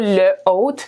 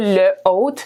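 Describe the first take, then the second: First: The article is said fully before the noun. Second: The same.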